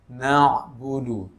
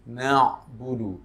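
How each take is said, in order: No difference in how they are said.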